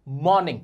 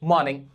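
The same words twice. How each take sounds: First: "मॉर्निंग" said with a hard, rolled r; the wrong version, with the r sounded. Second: "मॉर्निंग" with the r dropped, mawning; the correct version, no r; silent r. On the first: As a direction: lean on the r in "मॉर्निंग". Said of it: "अब मॉर्निंग नहीं बोला जाता". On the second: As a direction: swallow the r in "मॉर्निंग". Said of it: "जो होता है मॉर्निंग". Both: Shown as a demonstration.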